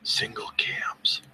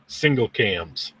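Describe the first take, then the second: First: Slow close whisper; whispered into the mic. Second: Said in the usual way. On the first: Shown as a demonstration. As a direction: breathe the name right into the mic. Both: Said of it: "I'm gonna whisper it into the microphone".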